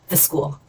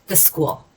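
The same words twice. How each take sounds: Both takes have the same delivery.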